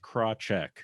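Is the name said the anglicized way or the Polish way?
anglicized. The name is said in an anglicized way. "easiest way to say it is"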